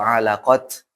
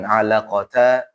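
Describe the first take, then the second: First: The word ends with a clipped t sound. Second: The word ends with a t and vowel. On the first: "atau alaqat, tidak" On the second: "Jadi bukan alaqata"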